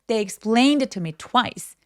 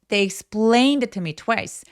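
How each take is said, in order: First: Only explained and twice are stressed; others weak. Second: The same.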